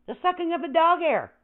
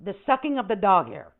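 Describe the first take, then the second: First: "dog" lifted high on the repeat; higher repeat. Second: Said in the usual way. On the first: Shown as a demonstration. To chat about vacuuming, a higher mock repeat. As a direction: say it again, pitched up on "dog". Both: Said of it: "repeat with higher pitch".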